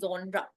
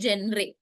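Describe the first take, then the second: First: The first vowel sounds like 'aw', ending 'ra'. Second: The first vowel sounds like 'eh', ending 'ray'. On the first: The speaker calls it right. "हम लोग आजकल कहते हैं" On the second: The speaker calls it wrong. "We do not से"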